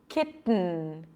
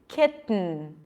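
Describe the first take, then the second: Both takes have the same delivery.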